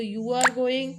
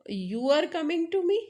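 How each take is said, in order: First: You are going said as a flat falling statement; falling statement tune. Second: You are coming to me slowed, pitch rising high on me; rising question tune. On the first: Teacher showing a statement tune to students, falling. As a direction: state it plainly, tune dropping at the end. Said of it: "अपने tone के कारण". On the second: Teacher showing how a rising tune turns the statement into a question. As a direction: ask it as a question, voice climbing up at the end. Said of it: "sentence का tone change करते हैं तो statement question". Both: Shown as a demonstration.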